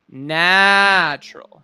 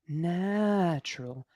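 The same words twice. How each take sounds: First: The word is said loudly and strongly. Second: The word is said quietly and lightly. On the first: The speaker calls it right. "but loud" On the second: The speaker calls it wrong. "your speaking voice is also a little bit quiet"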